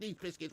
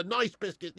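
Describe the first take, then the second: First: "Nice" said "neece", like the city in France; "Nice" pronounced nis, the French way. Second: "Nice" said like the word nice, with a long "eye" vowel; "Nice" pronounced naɪs, like the English adjective. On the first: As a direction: say "Nice biscuits" with "Nice" rhyming with fleece. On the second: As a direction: say "Nice biscuits" with "Nice" rhyming with rice. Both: Shown as a demonstration. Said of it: "whatever you wanna call it".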